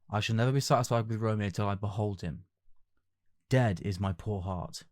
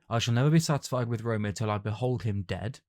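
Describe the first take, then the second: First: There is a pause between "him" and "dead". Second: "Dead" runs on from "behold him" without a pause.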